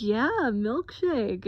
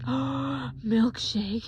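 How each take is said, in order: First: Slow, louder, swooping playful yes; indulgent confirmation. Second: Mock-thrilled, wide-eyed question; childlike excitement. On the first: Retold or imitated. Boyfriend confirming milkshake to partner, playfully indulgent. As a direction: confirm it as if coaxing a small child. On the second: Patient offered a milkshake, childlike excited question. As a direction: ask it like a delighted little kid. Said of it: "like a little five-year-old".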